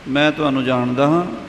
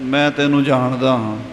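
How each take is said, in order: First: It is said with a questioning tune. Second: It is said in an angry tone. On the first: The speaker asks whether they know the listener. "ਫਿਰ ਪ੍ਰਸ਼ਨਵਾਚਕ" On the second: The speaker knows the listener's true nature well. "ਚੰਗੀ ਤਰ੍ਹਾਂ ਗੁੱਸੇ ਨਾਲ"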